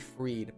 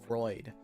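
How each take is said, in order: First: The vowel sounds like ee. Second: The vowel sounds like oy. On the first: "People call me Freed" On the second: "someone called me Freud, like like Sigmund Freud"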